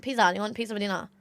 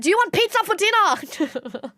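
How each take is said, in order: First: Said in the usual way. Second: High, slow and emphatic, hitting "pizza"; retold over-enunciated question, "pizza" punched; exasperated repeat. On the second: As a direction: spell out "pizza" for someone who didn't understand. Repeats question after not being understood.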